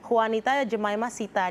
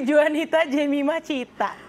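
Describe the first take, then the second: First: The last name begins with an s sound. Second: The last name begins with a ch sound. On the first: This is how the family name is read originally. "sebenarnya nama aku tuh Juanita Jemima Sita dibacanya" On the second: This is how the name is said in Indonesia. "di Indonesia kan jadi Juanita Jemima Cita"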